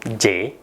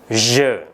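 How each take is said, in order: First: The word has an Indonesian-style mispronunciation. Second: The word has the standard French pronunciation. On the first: The speaker calls it wrong. "pengucapan yang tidak benar" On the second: The speaker calls it right. "Pengucapan yang tepat adalah je"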